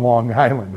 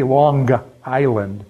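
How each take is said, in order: First: Said in the usual way. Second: Long Island accent, drawn out with a hard g. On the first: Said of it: "When they say Long Island". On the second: Shown as a demonstration. Showing how Long Islanders name home, Long Island accent. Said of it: "you know they're from Long Island".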